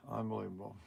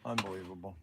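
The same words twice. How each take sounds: First: Very soft, low weary mutter; muttered disbelief. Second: Low, soft exasperated mutter; muttered disbelief. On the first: After the phone call ends, very soft weary mutter. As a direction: shake the head and breathe out Unbelievable. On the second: After hanging up on a scam caller, soft exasperated mutter. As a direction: unbelievable under the breath, much softer. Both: Real, not acted.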